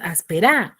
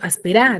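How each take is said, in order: First: The stress is on the last syllable. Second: The stress is on the first syllable. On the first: The speaker calls it wrong. "si fuese aguda, sería en la ra. Entonces tú pronuncias áspera, ¿así se pronuncia?" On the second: The speaker calls it right. "Entonces yo digo"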